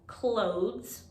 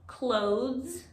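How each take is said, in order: First: The s follows the th sound directly. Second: The s follows the th sound directly.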